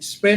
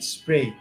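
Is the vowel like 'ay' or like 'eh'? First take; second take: eh; ay. First: The vowel is a plain 'eh' sound. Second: The vowel glides like 'ay'. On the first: The speaker calls it wrong. "স্প্রে না" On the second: The speaker calls it right. "হবে স্প্রে"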